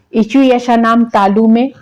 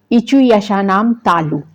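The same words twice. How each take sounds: First: Said in the usual way. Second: Slow, deliberate recitation with a falling close on तालु; teacher reciting a Sanskrit sutra. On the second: Shown as a demonstration. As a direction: state the rule slowly, word by word. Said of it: "तो ये सूत्र आप याद कर लीजिए".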